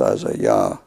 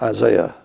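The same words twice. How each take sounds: First: The ending is said as a clear 'yah'. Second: The ending is said the usual English way. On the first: This keeps the divine name as the ending. The speaker calls it right. "but it's Isaiah" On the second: This is the common everyday pronunciation. The speaker calls it wrong. "we pronounce it Isaiah"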